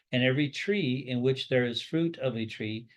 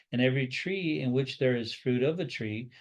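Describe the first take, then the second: Both takes have the same delivery.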